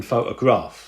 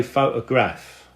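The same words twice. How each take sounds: First: "photograph" ending in -grahf; usual pronunciation. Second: "photograph" ending in -graff; old working-class London "photograph" with -graff; nan's old pronunciation. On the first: Shown as a demonstration. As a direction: say "photograph" with a long AH at the end. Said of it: "rather than photograph". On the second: Retold or imitated. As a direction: say "photograph" as nan did, short flat A at the end. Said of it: "She would say photograph".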